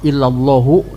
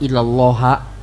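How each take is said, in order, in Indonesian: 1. Kata ini berakhir dengan vokal 'u'. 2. Kata ini berakhir dengan vokal 'a'. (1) "makanya dibaca roh rofa illallahu" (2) "tidak boleh dibaca ilallaha"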